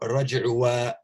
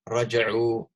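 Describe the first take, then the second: First: An extra vowel sound is added at the end. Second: The word ends without any extra vowel sound. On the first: The speaker calls it wrong. "So you don't say" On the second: The speaker calls it right. "it's raja'u hakada"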